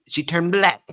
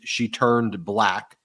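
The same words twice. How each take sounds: First: It is said in a childish baby voice. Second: It is said in a normal adult voice.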